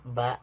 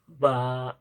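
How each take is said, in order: First: The vowel is held briefly. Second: The vowel is drawn out long. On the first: "Kalau dibaca pendek berarti normal" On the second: "itu ba-nya menjadi panjang"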